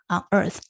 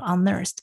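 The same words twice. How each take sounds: First: "unearthed" slowly pieced from on plus earth; spelled-out pronunciation. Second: "unearthed" with on run into earth; linked pronunciation. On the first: Explaining the word's parts to a co-host, slow piecewise "unearthed". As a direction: sound out "unearthed" as on, then earth. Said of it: "就是一个on，U N". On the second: Repeating what the co-host taught, linked "unearthed". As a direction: say "unearthed" joined, the n opening a "nerth". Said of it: "把on跟earth连起来了". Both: Shown as a demonstration.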